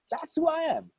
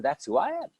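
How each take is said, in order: First: Much higher, leaning on who; emphatic repeat. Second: Said in the usual way. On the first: Real, not acted. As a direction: lift it high and hit who. Repeats DNA is the essence.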